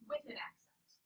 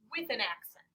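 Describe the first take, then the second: First: Soft breathy whisper repeating the rule; whispered reminder. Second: Said in the usual way. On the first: Shown as a demonstration. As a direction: whisper it like a secret hint to the class.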